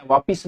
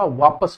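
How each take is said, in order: First: वापिस with i, vaa-pis; softer वापिस, i in the second syllable; wrong pronunciation. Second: वापस as vaa-pas, no i; lower, softer वापस with short a in pas; correct pronunciation. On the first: Teacher dismissing the common mistake, mispronounced demo. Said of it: "वापिस नहीं होता". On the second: Teacher giving the correct word, careful pronunciation. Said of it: "वापस होता है". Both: Shown as a demonstration.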